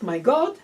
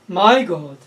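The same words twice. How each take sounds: First: The stress falls on God. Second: The stress falls on my.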